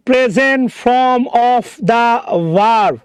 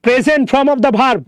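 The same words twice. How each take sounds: First: Very slow, word by word; stretched, deliberate teacher's repeat; slow emphatic repeat. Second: Said in the usual way. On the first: Shown as a demonstration. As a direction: spell out each word slowly for the class. Repeats it slowly for careful attention.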